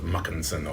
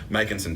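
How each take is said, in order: First: The first vowel sounds like 'muck', Scottish-style. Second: The first vowel sounds like 'mack', plain style.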